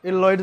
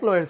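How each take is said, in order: First: An extra 'el' sound comes before the name. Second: The name starts directly, with no 'el' sound. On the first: "অনেকে এটাকে এল লয়েডস বলে" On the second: "লয়েডস বলতে পারিস"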